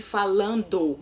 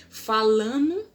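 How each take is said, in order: First: Said in the usual way. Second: "Falando" said "falano", with the d dropped; colloquial falano. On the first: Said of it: "ao invés de". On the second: Shown as a demonstration. Teacher showing the spoken "falano". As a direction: drop the d, "falano". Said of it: "ao invés de falando".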